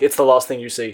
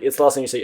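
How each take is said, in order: First: The phrase trails off ominously into a pause. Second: The phrase runs straight on without a pause. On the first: Something sinister is implied. The speaker calls it wrong. "Not like it's the last thing you see. Dot dot dot" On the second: It is simply the final item before the exit. The speaker calls it right. "and then there's the exit"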